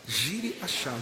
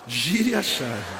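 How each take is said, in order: First: It is said at normal loudness. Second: It is said louder.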